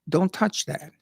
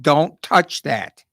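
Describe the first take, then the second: First: It is said at a calm, normal loudness. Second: It is yelled loudly and forcefully. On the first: "I might say to a child" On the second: "I might yell and scream"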